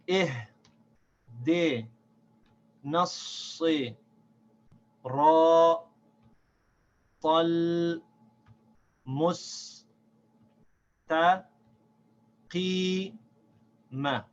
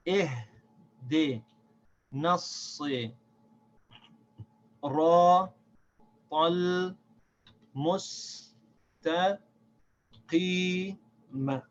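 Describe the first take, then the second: First: It is recited at a slower pace. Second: It is recited at a faster pace.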